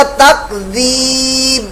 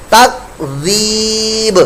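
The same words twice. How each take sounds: First: تکذیب with the final b swallowed silent; wrong takdhib, b dropped; silent b mistake. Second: تکذیب very slow with dhal and echoing b; slow correct takdhib. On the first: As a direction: show تکذیب cut off, no echo on b. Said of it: "یہ با کی آواز بالکل silent ہو". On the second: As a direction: draw out تکذیب with qalqala on the b. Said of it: "با ساکن میں قلقلہ". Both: Shown as a demonstration.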